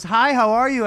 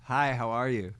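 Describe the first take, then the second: First: Chelsea's greeting. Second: His own reply. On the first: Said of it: "She goes, she goes". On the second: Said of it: "I go". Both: Retold or imitated.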